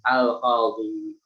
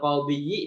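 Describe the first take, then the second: First: The word ends in a long i vowel. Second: The final y sound carries a short i vowel. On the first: This form is lightened for easier pronunciation. "maka ya-nya itu disukunkan" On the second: This form is possible but heavy to pronounce. "Ya-nya itu dikasrahkan"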